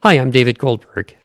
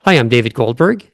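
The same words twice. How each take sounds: First: "Goldberg" coming down at the end; declarative. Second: "Goldberg" swinging upward at the end; like a question. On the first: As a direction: state the name, closing firmly on a falling "Goldberg". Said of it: "if I say declaratively". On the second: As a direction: leave "Goldberg" up, as if more follows. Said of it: "if I end my name like a question". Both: Shown as a demonstration.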